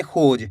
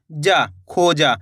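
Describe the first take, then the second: First: खोज ending clipped on a bare ज, no आ, said lower; half final sound. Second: Slow, lower demo of खोजा with the last जा said in full; teacher shows the wrong way: खोजा with a full आ on जा; wrong full ending. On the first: Teacher to students showing the correct half ending, clipped खोज. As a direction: stop short on the ज of खोज. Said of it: "यानी कि आधा उच्चारण निकालेंगे". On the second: Teacher to students showing the common mistake, खोजा said fully. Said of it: "खोजा तो तब होएगा". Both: Shown as a demonstration.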